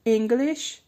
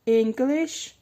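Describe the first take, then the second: No difference in how they are said.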